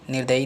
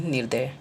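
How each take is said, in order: First: निर्दयी ending in yee; wrong form. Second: निर्दय ending in ya, no ee; corrected form. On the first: Teacher shows the error, निर्दयी ending in ee. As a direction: sound the final ee in निर्दयी. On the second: Teacher corrects students, निर्दय without final ee. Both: Shown as a demonstration. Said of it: "नहीं".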